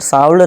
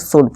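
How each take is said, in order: First: The L sound is pronounced in the word. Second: The L sound is left out of the word. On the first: The speaker calls it wrong. "साउल्ड नहीं" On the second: The speaker calls it right. "इसे शुड पढ़ेंगे"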